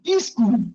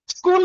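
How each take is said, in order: First: An extra vowel is added before the s. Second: No extra vowel; the word starts with s-k. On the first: "उसमें ई और जोड़ देगा" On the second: "स्कूल नहीं बोल सकता"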